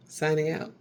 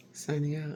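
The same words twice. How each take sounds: First: Lightly voiced anchor signing off; a hint of news anchor; mock newscaster sign-off. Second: Lightly voiced anchor, softer sign-off; a hint of news anchor; mock newscaster sign-off. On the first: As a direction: close the broadcast like a TV anchor. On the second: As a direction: sign off the broadcast once more, a little softer. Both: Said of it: "newscasters don't do that".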